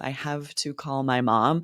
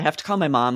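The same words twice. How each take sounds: First: The words are said slowly with each sound clear. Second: The words are run together quickly and reduced. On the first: The speaker calls it wrong. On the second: The speaker calls it right.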